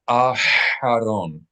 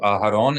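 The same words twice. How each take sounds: First: The H is slightly constricted in the throat. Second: The H is a soft, plain breath. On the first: The speaker calls it right. "you want to slightly constrict the H" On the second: The speaker calls it wrong. "with a regular soft H"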